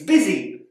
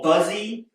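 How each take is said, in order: First: The first vowel is an 'i' sound. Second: The first vowel is not an 'i' sound. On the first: The speaker calls it right. "it makes an I sound" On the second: The speaker calls it wrong. "It's not"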